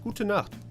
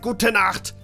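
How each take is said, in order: First: It is said in a relaxed natural voice. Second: It is said in an exaggerated harsh barking voice. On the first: It is how native speakers really talk. The speaker calls it right. "That's not how we talk. It's like" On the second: It mocks how German supposedly sounds. The speaker calls it wrong. "They always speak like in a Hitler Hitlerian way"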